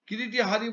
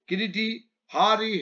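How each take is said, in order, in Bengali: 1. দুটো শব্দ থামা ছাড়াই একসঙ্গে বলা হয়। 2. দুটো শব্দের মাঝে একটু থামা থাকে। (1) "কিরিটি হারি বলে দিলে ভাষাটার পরিবর্তন হয়ে যায়" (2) "কিরিটি আলাদা শব্দ, হারি আলাদা শব্দ"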